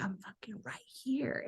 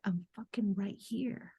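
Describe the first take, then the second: First: Slow hissed whisper; whispered retort. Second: Slow, soft, firm reply from within; higher self voice. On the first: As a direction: breathe it out in a whisper, pointed. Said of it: "And she was so loud". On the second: Higher self answering her tantrum, slow and soft. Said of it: "my higher self was like". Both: Retold or imitated.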